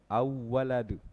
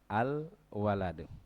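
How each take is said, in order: First: The L merges into the following W sound. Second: The L is pronounced clearly before the W. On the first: The speaker calls it wrong. "jangan sampai dibaca karena semua di atas idgham" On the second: The speaker calls it right. "harusnya al waladu"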